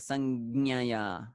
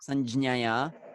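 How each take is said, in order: First: The j sound is swallowed and barely heard. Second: The j sound is fully pronounced. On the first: "they kind of swallow it" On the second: "they pronounce it fully Sanjnaya"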